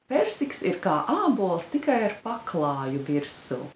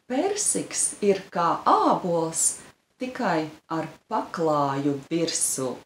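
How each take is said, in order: First: It is said fast. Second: It is said slowly.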